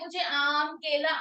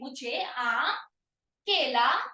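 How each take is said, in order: First: The fruit names run together without pauses. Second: Short pauses separate each fruit name. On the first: The speaker calls it wrong. "अगर आप एकदम बोलोगे" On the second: The speaker calls it right. "रुको"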